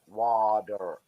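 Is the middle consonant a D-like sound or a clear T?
D-like. The middle consonant sounds like a soft D. "American English, or so wa- water"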